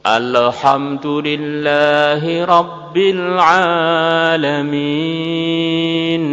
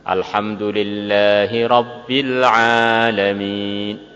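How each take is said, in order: First: The nasal sound is stretched out too long. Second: The nasal sound stops abruptly, cut short. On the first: "Atau terlalu molor ... kemudian nunnya molor" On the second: "Dengarkan yang terlalu berhenti. ... Tep. Ya, ini termasuk salah"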